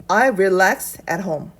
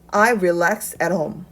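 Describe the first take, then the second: No difference in how they are said.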